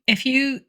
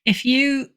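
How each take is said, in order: Both takes have the same delivery.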